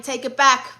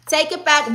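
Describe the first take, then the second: First: Said in the usual way. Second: Higher and louder, insisting; emphatic take it back; louder emphatic retraction. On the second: Real, not acted. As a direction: say it again, firmer and louder. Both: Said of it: "Actually, I'm lying".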